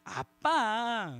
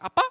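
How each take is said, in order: First: It sounds sweet and coaxing, asking a favor. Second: It sounds doubtful, checking identity.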